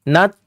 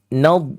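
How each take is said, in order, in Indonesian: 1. Tidak ada ruang tersisa di dalam; akhirannya terdengar seperti t. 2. Ruang tetap ada di dalam mulut; akhirannya terdengar berongga. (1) "Kalau habis ruangan jadi nat" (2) "tapi nad"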